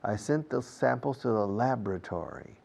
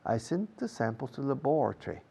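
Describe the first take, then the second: First: It is said with an American pronunciation. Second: It is said with a British pronunciation. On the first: "American English" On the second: "British English"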